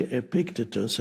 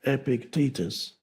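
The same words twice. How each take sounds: First: "Epictetus" said with the stress on the first syllable, EP-ic-te-tus; old wrong pronunciation. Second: "Epictetus" with the stress on the second syllable, e-PIC-te-tus; corrected pronunciation. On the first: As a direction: say "Epictetus" the way he used to, stress on the front. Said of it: "I used to say Epictetus". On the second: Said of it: "the stress is on the second syllable". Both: Shown as a demonstration.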